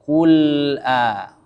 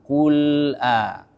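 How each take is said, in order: The two takes are said the same way.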